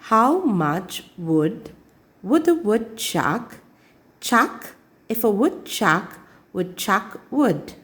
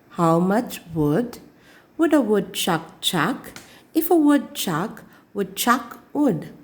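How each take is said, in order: No difference in how they are said.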